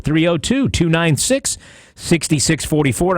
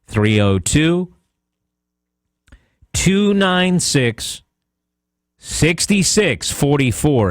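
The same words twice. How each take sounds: First: The number is read quickly. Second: The number is read slowly. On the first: "I know I said that fast" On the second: "Here it is slower"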